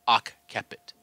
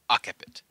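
First: The doubled consonant is held long, as two sounds. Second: The doubled consonant is said short, as one sound. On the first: "I believe it should be occiput, pronouncing it like that" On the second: "I would immediately think of this as occiput"

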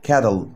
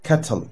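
First: It is said in an informal American pronunciation. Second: It is said in the formal standard pronunciation. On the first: "American kettle أو informal American" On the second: "النطق الرسمي"

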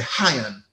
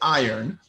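First: It is said with a Jamaican accent. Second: It is said with an American accent.

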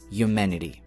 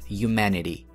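No difference in how they are said.

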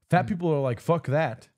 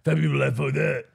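First: Each word is pronounced clearly and crisply. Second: The words are run together and slurred. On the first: The speaker calls it right. "I think you should enunciate. Like" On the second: The speaker calls it wrong. "Instead of like"

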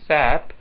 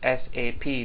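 First: It is spoken as a single word. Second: It is spoken as three separate letters. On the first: The speaker calls it wrong. "not SAP" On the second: The speaker calls it right. "should be pronounced as SAP"

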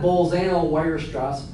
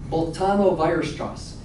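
First: Weierstrass begins with an English W sound. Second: Weierstrass begins with a V sound. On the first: The speaker calls it wrong. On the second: The speaker calls it right. "W is a B sounding"

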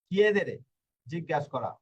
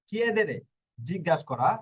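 The two takes are said the same way.

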